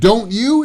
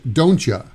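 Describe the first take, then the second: First: The word 'you' is pronounced in full. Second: The word 'you' is reduced to 'ya'.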